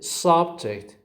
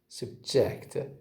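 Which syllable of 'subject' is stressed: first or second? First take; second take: first; second. First: The stress is on the first syllable. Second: The stress is on the second syllable. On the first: It is a noun meaning a topic. "It's a noun" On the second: It is a verb meaning to expose someone to something. "I say the words with stress on the second syllable"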